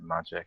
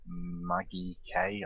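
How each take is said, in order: First: The name is said like the word magic. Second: The name is said as Maggie plus a K. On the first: This is how the name is meant to be said. "you're supposed to pronounce it Magic" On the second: This is the speaker's own habitual nickname. "I always called him Maggie"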